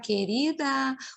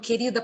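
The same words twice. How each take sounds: First: It is said in a mocking tone. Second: It is said in a scolding tone.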